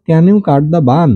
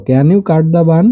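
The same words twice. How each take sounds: First: Each word slow and separate, pitch up; slow model reading. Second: Said in the usual way. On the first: Shown as a demonstration. Teacher models the book line for pupils, slow and clear. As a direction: spell the question out slowly for the class. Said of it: "এখানে বলছে". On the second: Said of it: "তুমি কি কাটতে পারো?".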